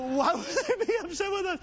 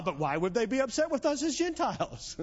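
First: High-pitched, put-on voice for a mock puzzled question; comically high quoted protest; exaggerated repeat. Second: Said in the usual way. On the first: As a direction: redo the line much higher, hammed up. Redoes the line after audience misses it.

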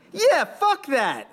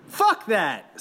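First: Much higher and slow, a second voice; echoing voice. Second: Defiant yell, pitched higher. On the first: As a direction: drag it out like someone joining the chant late. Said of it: "another voice echoed". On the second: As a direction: spit it out like a rallying cry. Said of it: "someone yelled". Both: A narrator's reading.

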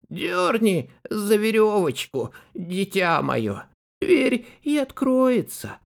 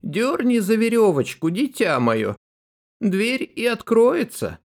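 First: Wolf faking granny's voice; higher, thin fake granny voice; thinner voice. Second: Put-on high old granny calling out; grandmother calling. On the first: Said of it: "сказал потоньше". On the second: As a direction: call from bed like a grandma. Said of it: "и крикнула".

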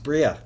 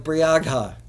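First: Said in the usual way. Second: Briagha sounded out as written, bree-ag-ha; said as spelled. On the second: Shown as a demonstration. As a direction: sound out every part of Briagha, with the g and h heard. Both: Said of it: "but it's pronounced Bria".

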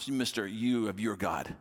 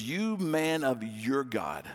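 First: Slow, sarcastic mock title; sarcastic jab. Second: Slow, drawn-out scorn at the stranger; scornful retort. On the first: Widow mocking Elijah, slow and sarcastic. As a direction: lean into the sarcasm slowly. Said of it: "she goes". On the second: Retold or imitated. Widow scorning the prophet, slow and scornful. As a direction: spit it out slowly with contempt. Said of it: "she kinda goes off".

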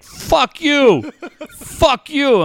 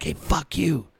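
First: High-pitched mock outraged retort; offended phone scammer. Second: Softer, understated comeback at usual pitch. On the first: IRS scam caller curses back at dad, high mock outrage. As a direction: imitate an insulted caller, voice jumping high. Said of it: "the guy from the I R S is like". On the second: Retold or imitated. Dad answers the scam caller back, quiet retort. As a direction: throw the curse back quietly, imitating oneself. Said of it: "I'm like".

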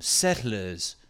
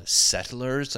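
First: "Settlers" in a put-on settler accent, R dropped; imitation colonial accent on "Settlers", no R at the end. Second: Said in the usual way. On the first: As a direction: say "Settlers" in a mock old settler accent, ending "-luhz". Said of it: "We always assume they sound like this". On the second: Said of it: "I guess you wanna call them".

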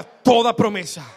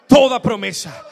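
First: Loud proclamation. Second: Full shout. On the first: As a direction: belt it out, much louder. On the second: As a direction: shout it at full force, even louder. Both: Shown as a demonstration.

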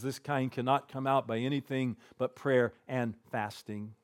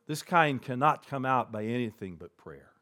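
First: Quiet solemn quote. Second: Said in the usual way. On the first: Retold or imitated. Jesus answering his disciples, quiet and solemn. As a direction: let it sink in softly. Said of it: "he says". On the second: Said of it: "And he said to them".

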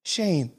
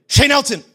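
First: Soft, tender name call; imitated gentle parent calling softly; loving and gentle. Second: High-pitched mock full-name summons; imitated stern parent, serious; parent scolding. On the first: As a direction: say the name gently, much quieter. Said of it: "there's a difference between Shane Elton and Shane". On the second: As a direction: call the kid's full name like trouble is coming. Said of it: "I knew it was serious".

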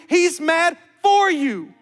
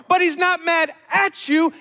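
First: "for" slow, loud and high; stress on FOR. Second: "at" shouted out high; stress on AT. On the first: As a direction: stretch and hammer the word "for". Preacher contrasts for with at. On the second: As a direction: punch "at" in a raised preaching voice. Preacher contrasts at with for. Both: Real, not acted.

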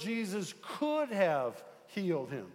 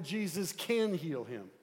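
First: "could" pitched up and drawn out, then falling away; stress on COULD. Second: "can" picked out firmly, the rest falling; stress on CAN. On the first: Preacher voicing Martha's doubt, with heavy stress on "could". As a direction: lean hard on "could", then let the rest drop. Contrasts could have with can. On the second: Preacher correcting Martha's doubt, with firm stress on "can". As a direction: put the weight on "can", then drop to a close. Contrasts can with could have. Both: Shown as a demonstration.

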